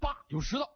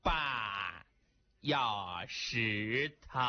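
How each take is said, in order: First: It is said quickly and crisply. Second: It is said slowly and drawn out.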